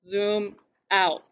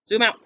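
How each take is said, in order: First: It is said at a normal volume. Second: It is said at a louder volume.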